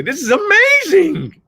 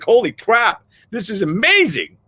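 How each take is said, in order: First: Much higher, louder and slow, every word stretched out; a drawn-out, booming "amazing"; Joseph McClendon impression. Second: Thrilled and lifted higher, pitch jumping up; a happy "holy crap" at a lucky break; excited amazement. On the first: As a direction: ham up the big stage hype-man wonder. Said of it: "as Joseph McClendon would say". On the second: Retold or imitated. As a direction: gush like the day just went perfect. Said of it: "You're like".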